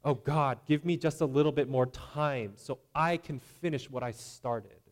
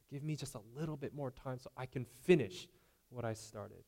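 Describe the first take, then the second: First: Louder, breezy casual prayer; self-reliant prayer. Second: Softer, quieter take of the same casual prayer; softer repeat. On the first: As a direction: ask God like it's a small favor. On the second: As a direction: pull it back and ask again quietly. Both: Retold or imitated. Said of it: "Do they sound like this?".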